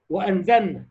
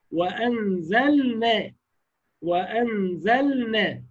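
First: وأنزلنا with the lam snatched into the nun; wrong merged reading. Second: وأنزلنا slow, the lam given its full due; correct clear lam. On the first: Teacher voices the mistake before correcting it. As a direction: rush وأنزلنا so the lam vanishes. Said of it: "خطأ". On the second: Teacher gives the corrected reading after the wrong one. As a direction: stretch وأنزلنا, tongue resting on the lam. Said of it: "خطأ، وأنزلنا". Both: Shown as a demonstration.

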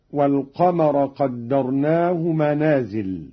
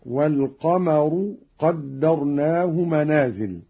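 First: Said in the usual way. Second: والقمر said wal-qamaru with a clear u on the ra, slow; damma on ra of والقمر. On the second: Shown as a demonstration. Reciter demonstrating for students, والقمر ending in -ru. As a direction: end والقمر on -ru before قدرناه. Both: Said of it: "قرأ قالون برفع الراء هكذا".

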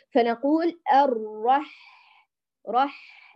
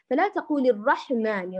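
First: الرح slow, breath flowing softly; correct soft ح. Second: الرحمن with a bounce on the ح; wrong bounced ح. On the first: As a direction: say الرح gently. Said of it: "ليس رح". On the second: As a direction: add an echo to ح in الرحمن. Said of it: "لا تقلقليه". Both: Shown as a demonstration.

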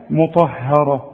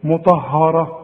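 First: "مطهره" with thin "hae" between heavy ta and ra; correct light ha. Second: "مطهره" all dark, mu-tah-haw-ra; wrong heavy ha. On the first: Shown as a demonstration. Teacher correcting the student, thin ha. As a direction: slowly lighten only the ha of "مطهره". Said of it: "لكن اله هي المرققه". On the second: Retold or imitated. Teacher replays the student's mistake, heavy ha. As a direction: make the ha of "مطهره" thick, as the error. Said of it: "بتفخمها لي ليه هنا؟".

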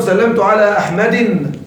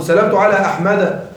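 First: "أحمد" ending as "Ahmadin"; wrong kasra tanween. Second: "أحمد" ending as "Ahmada"; fatha genitive ending. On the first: Teacher showing what not to say, "أحمد" wrongly ending in "-in". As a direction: close "أحمد" on a nunated "-in". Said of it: "لا تقل". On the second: Teacher modelling the correct genitive, "أحمد" said with final "-a". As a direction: end "أحمد" on open a, no tanween. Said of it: "مجرور بالفتحة". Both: Shown as a demonstration.

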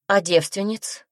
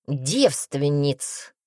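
First: Slower, rising question. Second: Very slow, drawn-out mock menace; menacing answer. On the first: Glenna double-checks the witch's threat, questioning. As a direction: lift ДЕВСТВЕННИЦ into a doubtful question. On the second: Witch scares off the girl, mock menacing. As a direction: stretch out ДЕВСТВЕННИЦ, falling, to frighten. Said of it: "громко клацнув зубами". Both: A narrator's reading.

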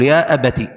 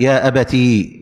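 First: "أبتي" ending on short -ti; ta with kasra. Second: "أبتي" slowly held on a long ee. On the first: Teacher showing the first form, "أبتي" with short i. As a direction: keep the last i of "أبتي" brief. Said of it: "إبدال الياء تاء مكسورة". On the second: Teacher showing the fourth form, "أبتي" slow with long ee. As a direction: draw out the final ee of "أبتي". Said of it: "بالتاء والياء". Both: Shown as a demonstration.

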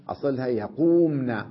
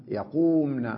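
First: يقومن said louder and clearly stressed, falling at the end; stress on the original form. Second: Said in the usual way. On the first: Shown as a demonstration. Teacher stressing يقومن for students. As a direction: lean on يقومن to show the underlying form.

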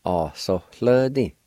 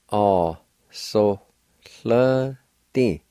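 First: Said in the usual way. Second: "A, so, hle, di" with gaps between syllables; slow breakdown of "A, so, hle, di". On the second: Shown as a demonstration. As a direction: draw out "hle" with a faint H, apart from "A, so" and "di". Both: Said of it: "faint H sound like this".

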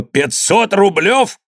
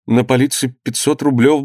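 First: High, drawn-out exclamation of outrage; indignant cry. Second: Mild, higher-pitched plea; tentative son. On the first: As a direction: echo the sum in outraged disbelief. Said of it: "крикнул Иван". (возмущённый крик, протяжно и высоко) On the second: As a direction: start explaining to an angry father. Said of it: "начал Данила". (робкий голос сына) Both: A narrator's reading.

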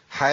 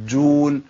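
First: Long "aa" then undoubled jim in "حاجون"; "حاجون" with only one short jim; wrong single jim. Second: Long "aa" then held jim in "حاجون"; "حاجون" with both jims clearly shown; correct doubled jim. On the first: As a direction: slip off the jim of "حاجون" without holding it. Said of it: "ما ينفعش". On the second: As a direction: pause on the still jim before "uun" in "حاجون". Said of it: "لازم تبين الفرق". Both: Shown as a demonstration.

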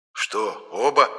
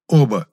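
First: Questioning double-check, rising in pitch on оба; mild disbelief on оба; surprised. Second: Firm, louder оба as an order; curt, forceful оба; commanding. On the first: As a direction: ask оба as a puzzled question. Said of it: "удивился Моня". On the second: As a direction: state оба with finality, no question. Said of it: "велел я". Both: A narrator's reading.

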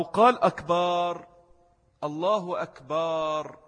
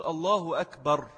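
First: Slow أكبر with long final vowel, akbaar; مد باء أكبر. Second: أكبر with a short A after B; فتحة الباء القصيرة. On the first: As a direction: stretch the A after B in أكبر. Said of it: "لأن أكبر جمع كبر". («أكبر» بمدّ الباء: أكبار) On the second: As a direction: end أكبر on a short akbar, no stretching. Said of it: "الباء فتحة". («أكبر» بفتحة قصيرة على الباء) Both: Shown as a demonstration.

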